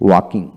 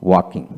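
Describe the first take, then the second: No difference in how they are said.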